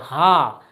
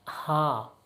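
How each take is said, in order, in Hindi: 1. यह शब्द ज़ोर से और दबाव के साथ बोला गया है। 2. यह शब्द धीरे और हल्के से बोला गया है। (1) "हमको जोर से बोलना पड़ेगा" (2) "हम धीरे से बोलते"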